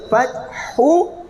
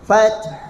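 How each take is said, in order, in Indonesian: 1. Kata itu berakhir dengan vokal penuh setelah h. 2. Kata itu berakhir hanya dengan h berdesah.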